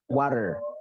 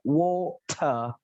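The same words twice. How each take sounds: First: The middle t sounds like a light d. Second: The middle t is crisp and clear. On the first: "Kalau U S English, T-nya ini akan menjadi soft D" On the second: "R-nya hilang, T-nya dibaca jelas"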